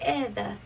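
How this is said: It is said in a British accent, soft R. "I love the way they say my name. It sounds like"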